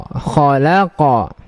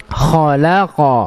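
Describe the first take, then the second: Both takes have the same delivery.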